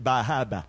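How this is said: The R sounds are dropped, Maine style.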